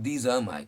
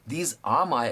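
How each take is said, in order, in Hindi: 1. ये शब्द जल्दी-जल्दी और एक-दूसरे में मिलाकर बोले जाते हैं। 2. ये शब्द धीरे-धीरे और अलग-अलग बोले जाते हैं। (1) "it sounds more natural, it sounds more fluent" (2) "अगर आप कहते हो तो कोई बुरा नहीं है"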